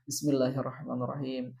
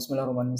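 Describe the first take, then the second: First: It is recited slowly with careful, measured sounds. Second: It is recited quickly and carelessly. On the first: The speaker calls it right. "tartil, kita baca" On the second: The speaker calls it wrong. "Jangan asal membaca ... Jangan seperti itu"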